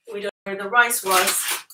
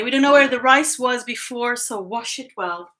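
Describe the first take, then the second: First: Said in the usual way. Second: A louder, lightly voiced mom giving advice; mock motherly warning, a bit louder; quoting mom. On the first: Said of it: "Don't forget to wash your rice". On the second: Daughter quoting her mom's rice advice, lightly mimicking. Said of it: "a thing that my mom used to say".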